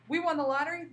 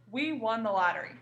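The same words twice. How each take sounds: First: Lottery line said higher with excitement; bright exclaiming demo; excited exclamation. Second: Said in the usual way. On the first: Shown as a demonstration. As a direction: show the thrill of winning. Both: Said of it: "that's a super exciting statement".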